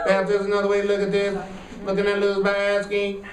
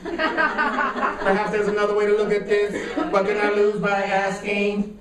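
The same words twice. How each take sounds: First: It is said flat, like a robot. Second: It is said lively, with rhythm and soul.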